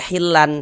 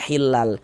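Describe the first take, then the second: First: The word ends with an n sound. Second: The word ends with an l sound. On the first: The speaker calls it wrong. "tidak dibaca hilan" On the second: The speaker calls it right. "tapi dibaca hilal"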